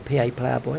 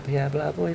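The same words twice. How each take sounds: First: The name is articulated clearly and carefully. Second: The name is slurred and mumbled. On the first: The speaker calls it right. "if I can say your name properly" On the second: The speaker calls it wrong. "rather than mumbling it like an old drunk"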